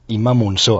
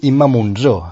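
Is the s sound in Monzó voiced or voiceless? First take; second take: voiceless; voiced. First: The s in the surname is voiceless, like s. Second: The s in the surname is voiced, like z. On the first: The speaker calls it right. "quan és Imma Monzó, amb essa sorda" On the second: The speaker calls it wrong. "tothom et diu Imma Monzó, amb essa sonora"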